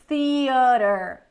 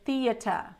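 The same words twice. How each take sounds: First: It is said with an American pronunciation. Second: It is said with a British pronunciation. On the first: "American English, we're gonna say theater" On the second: "And British, they pronounce the T"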